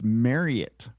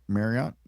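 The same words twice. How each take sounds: First: The name sounds like the words 'marry it'. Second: The name does not sound like 'marry it'. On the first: The speaker calls it right. "Marry it. Like you're going to marry it" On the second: The speaker calls it wrong. "I think, would be the general way to say the name"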